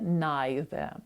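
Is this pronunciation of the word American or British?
British. The word is said with a British pronunciation. "гарна британська вимова – це є neither"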